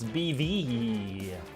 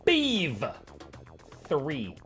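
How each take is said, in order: First: The last character is read as the letter E. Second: The last character is read as the number three.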